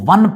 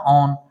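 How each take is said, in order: First: It sounds like the number one, 'wun'. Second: It sounds like 'own', without a w. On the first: The speaker calls it wrong. "बहुत सारे बच्चे इसको वन पढ़ रहे होते हैं, यहां वन नहीं पढ़ना" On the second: The speaker calls it right.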